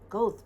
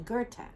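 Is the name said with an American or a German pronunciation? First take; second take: American; German. First: The name is said with an American pronunciation. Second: The name is said with a German pronunciation. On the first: The speaker calls it wrong. "a lot of people in America will call him Goethe" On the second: The speaker calls it right. "it's actually Goethe in the German pronunciation"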